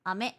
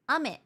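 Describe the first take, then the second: First: "ame" said with its pitch raised high; "ame" high-pitched reading; high pitch accent. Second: "ame" said with its pitch on the low side; "ame" low, falling-pitch reading; low pitch accent. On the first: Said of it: "one is higher intonation". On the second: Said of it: "One is lower". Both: Shown as a demonstration.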